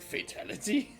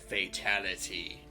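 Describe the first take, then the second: First: The voice rises at the end like a question. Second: The voice falls at the end like a statement. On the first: It is asked as a question. "said it as a question" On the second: It is announced as a fact. "Where before I thought he was like"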